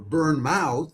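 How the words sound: The name has an American pronunciation. "as we Americans would pronounce it"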